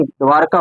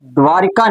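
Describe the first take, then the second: First: द्वारका as dvaar-kaa, no i; correct pronunciation. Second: द्वारिका with an i, dvaa-ri-kaa; incorrect pronunciation. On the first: Teacher giving students the proper word, correct pronunciation. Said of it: "द्वारका होता है". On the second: Teacher showing students the form to avoid, incorrect pronunciation. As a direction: say द्वारिका with ri in the middle. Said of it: "द्वारिका नहीं". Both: Shown as a demonstration.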